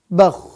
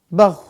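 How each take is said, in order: The two takes are said the same way.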